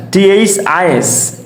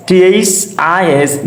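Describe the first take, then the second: First: Spelling out for students; slow spelling. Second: Spelling out for students; slow spelling again. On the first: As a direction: spell "টি এইচ আই এস" slowly letter by letter. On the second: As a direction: spell "টি এইচ আই এস" slowly, each letter apart. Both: Shown as a demonstration.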